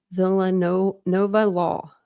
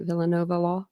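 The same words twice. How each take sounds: First: "Villanova Law" sounded out very slowly, syllable by syllable; careful pronunciation. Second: Said in the usual way. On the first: Shown as a demonstration. Streamer tries reading a viewer's name aloud, slow careful sounding-out. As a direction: spell out "Villanova Law" slowly as you try it. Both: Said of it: "Am I saying that right?".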